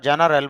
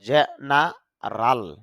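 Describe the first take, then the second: First: The last syllable has an 'e' vowel. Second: The last syllable has an 'a' vowel. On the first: The speaker calls it wrong. "যদিও আমরা জেনারেল বলি" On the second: The speaker calls it right. "আইপিএতে দেখা যাচ্ছে জেনারাল"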